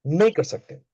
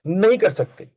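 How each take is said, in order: First: Said in the usual way. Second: नहीं hit high and loud, falling; stress on नहीं. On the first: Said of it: "repeated calmer". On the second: Shown as a demonstration. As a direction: punch नहीं in "नहीं कर सकते". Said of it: "emphatic refusal repeated". ("नहीं" पर ज़ोर, ऊँचा और तेज़)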